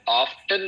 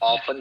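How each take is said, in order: First: The word is said with a t sound. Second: The word is said without a t sound. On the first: "इसको ऑफ्टन भी pronounce करते हैं" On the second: "ऑफन भी pronounce करते हैं, लेकिन मेरी सलाह है कि आप खुदा इसको ऑफन प्रोनाउंस किया करें"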